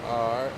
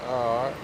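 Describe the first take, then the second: No difference in how they are said.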